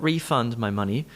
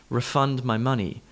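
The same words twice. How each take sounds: First: Refund said REE-fund before "my money"; wrong stress on first syllable. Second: Refund said re-FUND before "my money"; verb stress on second syllable. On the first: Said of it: "not refund my money". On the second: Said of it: "refund is the verb". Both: Shown as a demonstration.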